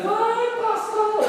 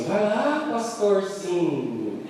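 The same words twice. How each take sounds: First: Cantarolado bem agudo e lento, zombando; deboche cantado. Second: Imitação leve e arrastada de deboche; deboche da esposa. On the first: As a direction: cantar a provocação em tom alto. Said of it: "E ela dizia". (esposa zombando do marido, cantarolando agudo) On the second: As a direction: um toque de zombaria, bem devagar. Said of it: "Ela ficou assim". (esposa provocando o marido pastor, deboche arrastado) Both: Retold or imitated.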